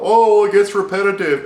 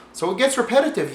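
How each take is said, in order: First: Higher, louder, whining voice of a gamer complaining "it gets repetitive"; mock the whiners; hammed-up gamer whine; mock complainer. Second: Said in the usual way. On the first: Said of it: "that's what people are gonna complain about".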